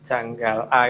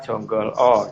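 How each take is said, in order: First: The vowels are pronounced as a sounds. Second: The vowels are pronounced as o sounds. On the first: "Janggal A itu" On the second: "kadang-kadang juga dibaca Jonggol O"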